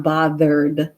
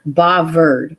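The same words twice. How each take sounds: First: Said in the usual way. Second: "bothered" said with a v for th; "bothered" with a v sound and dropped r; British "bovvered". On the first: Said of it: "It's not bothered". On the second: Shown as a demonstration. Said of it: "it sounds like bothered".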